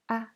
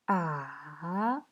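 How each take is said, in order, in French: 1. Le ton est court, léger et non accentué. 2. Le ton descend bas, puis remonte. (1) "c'est un ton neutre" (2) "Le troisième ton, ça descend et ça remonte"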